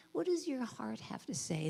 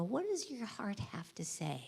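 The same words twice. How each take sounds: First: Said in the usual way. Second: Whispered and softer, a bit slow; soft tender whisper at a hospital bed; whispered to sick kids. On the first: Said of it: "and go". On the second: Retold or imitated. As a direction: gently hush it to a scared child. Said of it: "take my little stethoscope and go up and go".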